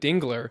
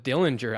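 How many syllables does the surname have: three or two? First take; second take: two; three. First: The name has two syllables, no early L. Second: The name has three syllables with an early L. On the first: The speaker calls it right. "I know it's Dylan Dingler" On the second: The speaker calls it wrong. "an extra L just gets thrown in there"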